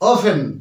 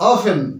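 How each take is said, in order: Both takes have the same delivery.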